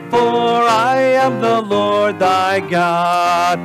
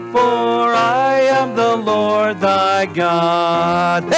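No difference in how they are said.

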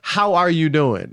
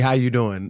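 First: It is said in a genuine, caring way. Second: It is said in a routine, churchy way.

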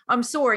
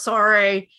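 First: The apology is said sincerely, with real meaning. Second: The apology is said carelessly, without meaning it.

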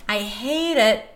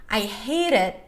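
Both takes have the same delivery.

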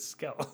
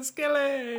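First: The name ends on the L with no vowel. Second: The name ends with an added 'ee' vowel. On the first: The speaker calls it right. "because it's Skell" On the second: The speaker calls it wrong. "you put that E on me"

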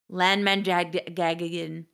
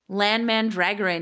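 First: The surname is garbled into a -gagan ending. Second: The surname is said with its usual -goran ending. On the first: The speaker calls it wrong. "He goes Lan Mandragagan" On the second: The speaker calls it right. "he can't even say Lan Mandragoran"

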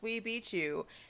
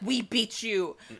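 First: It is said with little energy. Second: It is said with lots of energy.

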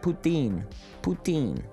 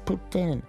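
First: It is pronounced the English-speaking Canadian way. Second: It is pronounced the Quebec French way. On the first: "I've always said poutine" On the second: "she was the sweet French girl... She said, no, it's called poutine"

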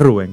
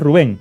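First: The stress is on the first syllable. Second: The stress is on the second syllable. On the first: This is how the name is said here. "con el tilde en la U" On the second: This is how the name is said over there. "allá es Rubén"

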